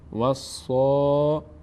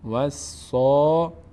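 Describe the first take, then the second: No difference in how they are said.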